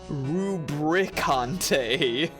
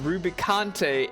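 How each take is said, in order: First: An r sound follows the b. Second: There is no r sound after the b. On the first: The speaker calls it wrong. "and not Rubricante" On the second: The speaker calls it right. "Rubicante's name is Rubicante"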